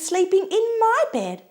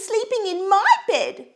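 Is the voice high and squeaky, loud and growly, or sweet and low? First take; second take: sweet low; high squeaky. First: The voice is sweet and low. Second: The voice is high and squeaky. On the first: "in her sweet, low voice" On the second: "squeaked Baby Bear"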